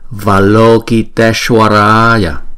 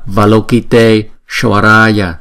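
First: The word is said joined without a break. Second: The word is split in two with a break. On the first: The speaker calls it right. "chúng ta phải đọc cho nó gom lại với nhau" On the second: The speaker calls it wrong. "thì nó thành hai chữ, nó tách ra thì nó không hay lắm"

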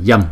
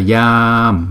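First: The vowel is short and said quickly. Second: The vowel is long and drawn out. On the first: The speaker calls it right. "chúng ta đọc nhanh là yam" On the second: The speaker calls it wrong. "chứ không phải là yam"

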